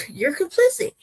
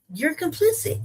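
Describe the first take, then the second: First: Higher, with a laugh, complicit rising; laughing accusation. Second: Pointed, accusing, stress on complicit; emphatic accusation. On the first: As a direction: laugh and repeat it, incredulous. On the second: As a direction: hammer the word complicit with rising tune. Accusing Ghana, repeated. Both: Real, not acted.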